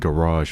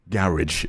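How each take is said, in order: First: It is pronounced the American way. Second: It is pronounced the British way.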